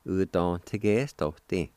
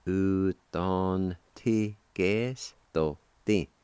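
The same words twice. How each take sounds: First: Said in the usual way. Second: "U ton ti ges to ti" slowly, each syllable held; slow sounding-out. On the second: Shown as a demonstration. Teacher models the word kindest for learners, slowly syllable by syllable. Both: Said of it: "like this".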